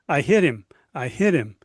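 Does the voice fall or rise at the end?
fall. The voice falls at the end like a statement.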